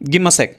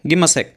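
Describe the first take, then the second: The two takes are said the same way.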